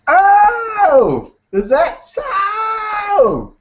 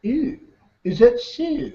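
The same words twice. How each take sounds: First: Very high, stretched-out wail; big-mouth frog. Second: High, small, pinched-down frog voice; small-mouthed frog. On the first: Frog answering the mama deer, big-mouth voice. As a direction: bellow it slowly in a high cartoon frog voice. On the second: Frog facing an alligator that eats big mouth frogs, small voice. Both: Acted.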